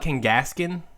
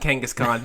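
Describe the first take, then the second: First: The last syllable sounds like 'kin'. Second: The last syllable sounds like 'kahn'. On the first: This is how some other people say the name. The speaker calls it wrong. "have you ever heard people call it Kangaskin?" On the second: This is how the speaker says the name. The speaker calls it right. "I call it Kangaskhan"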